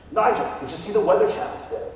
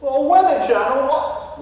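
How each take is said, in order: First: Said in the usual way. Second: Put-on a Texan faking an English accent, higher and louder; puzzled English gentleman ghost, hammed up; mock English accent. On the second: Ghost Nigel echoes the realtor in a fake English accent. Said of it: "a Texan trying to emulate an Englishman".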